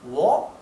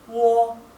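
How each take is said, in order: First: The pitch rises from start to end. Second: The pitch stays high and level throughout. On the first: "Si fuera el tono ascendente sería wo" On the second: "si fuera el tono alto, ... es wo"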